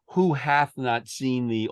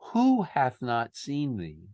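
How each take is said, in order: First: The stress falls on the second word. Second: The stress falls on the first word. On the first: The speaker calls it wrong. "I don't think it's" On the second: The speaker calls it right. "I think it's"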